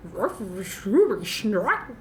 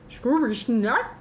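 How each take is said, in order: First: Very slow, stretched Scooby Snack; slow Scooby-Doo voice. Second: Slow, drawn-out Scooby Snack; Scooby-Doo voice. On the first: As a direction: drag it out even slower. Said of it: "I don't know what that was". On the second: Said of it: "I sound like Scooby-Doo". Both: Shown as a demonstration.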